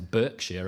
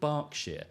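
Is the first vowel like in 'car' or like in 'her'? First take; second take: her; car. First: The first vowel sounds like in 'her'. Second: The first vowel sounds like in 'car'. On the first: This follows the written form of the name. The speaker calls it wrong. "they're not stupid enough to call themselves" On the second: This is how the name is commonly said. The speaker calls it right. "there is a county called"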